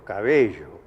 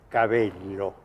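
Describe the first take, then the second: First: The double L is pronounced the Rioplatense way. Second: The double L is pronounced the Peninsular way. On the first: "yo digo" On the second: "yo no digo eh"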